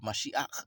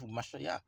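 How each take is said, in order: First: The word ends in a harsh throat sound. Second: The word ends in a soft breathy sound. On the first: "If you close the, you know, give it guttural" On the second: "or if you let it breathe"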